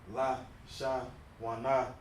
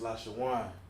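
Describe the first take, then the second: First: The word ends with an extra final syllable. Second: The word ends without an extra final syllable. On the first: The speaker calls it wrong. "it's not La Sha Wana" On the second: The speaker calls it right. "it's La Shawan"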